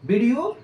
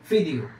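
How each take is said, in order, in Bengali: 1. শব্দটি v ধ্বনি দিয়ে শুরু হয়। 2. শব্দটি f ধ্বনি দিয়ে শুরু হয়।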